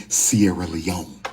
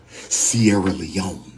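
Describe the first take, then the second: No difference in how they are said.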